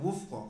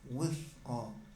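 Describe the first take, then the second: First: The middle consonant is an f sound. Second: The middle consonant is a th sound. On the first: The speaker calls it wrong. "Bukan wufqa. Kalau wufqa berarti huruf fa" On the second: The speaker calls it right. "Wuthqa di ujung lidah"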